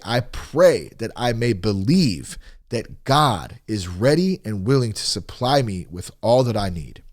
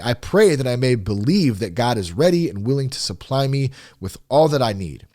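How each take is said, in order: First: It is read a little more slowly. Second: It is read at a normal pace.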